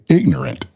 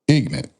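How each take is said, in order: First: It is said the other brother's community way. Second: It is said the African American community way.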